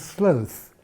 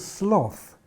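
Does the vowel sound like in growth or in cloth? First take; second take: growth; cloth. First: The vowel rhymes with growth. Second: The vowel rhymes with cloth. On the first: "the animal that I call a sloth" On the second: "Some people call this a sloth. Now this is a spelling pronunciation"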